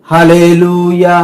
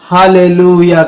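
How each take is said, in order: The two takes are said the same way.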